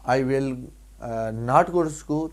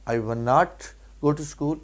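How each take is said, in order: First: Said in the usual way. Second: "will not" merged as one word, won't; contracted pronunciation. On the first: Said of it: "one not". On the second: Shown as a demonstration. Teacher reminding students of the negative short form, contracted pronunciation. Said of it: "کہ one not".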